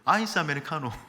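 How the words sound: It is said with a regional Korean intonation. The speaker calls it wrong. "근데 여러분 지방에서 오신 분들 꼭 이럽니다"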